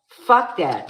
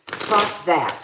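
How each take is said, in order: First: Escalated angry "Fuck that", the louder second take; louder angry repeat. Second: Louder curt fuck that; angry dismissal. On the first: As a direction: slam "Fuck" harder the second time. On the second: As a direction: spit out "Fuck that" loud, with the stress on "Fuck". Angry refusal mid-argument. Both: Real, not acted.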